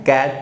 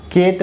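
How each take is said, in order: First: कैट said with an open a like "cat"; the correct way, कैट with short open a; right vowel. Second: केट said with a long e like "kate"; the wrong way, केट as "keyt"; wrong vowel. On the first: Teacher modelling the right sound for the class. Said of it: "कैट पढ़ना है". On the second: Teacher showing the wrong reading to a phonics class. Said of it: "केट नहीं पढ़ना है". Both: Shown as a demonstration.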